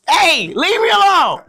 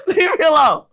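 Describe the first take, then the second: First: High, slow mock plea to be left alone; drawn-out high-pitched playful protest; mock exasperation. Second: Real laughter breaking through a mock plea; giggling while begging to be left alone; laughing protest. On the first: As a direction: whine it up high like you're begging, half joking. Exasperated by daughter's teasing. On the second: Real, not acted. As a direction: laugh it out, still high and loud.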